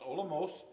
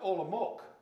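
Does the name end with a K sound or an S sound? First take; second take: S sound; K sound. First: The final C is said as an S sound. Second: The final C is said as a K sound. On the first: The speaker calls it right. "more like an S sound, so it's" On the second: The speaker calls it wrong. "I was always pronouncing to myself this town"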